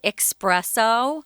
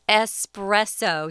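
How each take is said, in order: First: It begins with an 'ex' sound, like express. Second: It begins with a plain 'es' sound, no k. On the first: The speaker calls it wrong. "like there's an X in it, like express" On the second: The speaker calls it right. "It's espresso"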